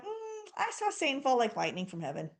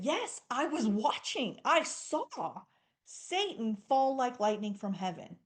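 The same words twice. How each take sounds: First: Weird detached reply. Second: Jesus celebrating with his disciples; celebrating reply. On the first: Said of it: "how weird would it be". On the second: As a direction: share their joy, yes I saw it. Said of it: "He was celebrating with him". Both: Retold or imitated.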